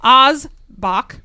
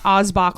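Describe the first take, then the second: First: Oz is not pronounced like the brandy's name. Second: Oz is pronounced like the brandy's name. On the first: The speaker calls it right. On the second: The speaker calls it wrong.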